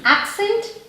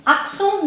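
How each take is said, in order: First: Said in the usual way. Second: Accent as French "ak-son", nasal ending; French pronunciation. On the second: Shown as a demonstration. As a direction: say Accent the French way, final t silent. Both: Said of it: "Accent means accent".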